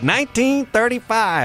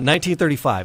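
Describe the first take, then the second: First: It is said in an old-timey prospector voice. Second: It is said in his normal speaking voice.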